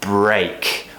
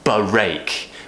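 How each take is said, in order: First: The b and r blend in one breath. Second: The b and r sounds are split apart. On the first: The speaker calls it right. "all in one breath" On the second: The speaker calls it wrong. "we don't say break"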